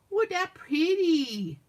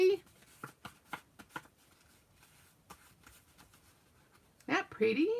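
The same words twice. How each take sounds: First: High, slow, drawn-out playful gushing; exaggerated admiration. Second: Said in the usual way. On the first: Crafter showing off her finished piece, hammed-up admiration. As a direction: stretch it out, hammed-up and laughing.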